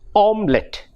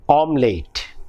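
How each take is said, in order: First: The last syllable sounds like a short 'lit'. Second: The last syllable sounds like 'late'. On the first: The speaker calls it right. "The word should be omelette, omelette, not late" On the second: The speaker calls it wrong. "We say omelette"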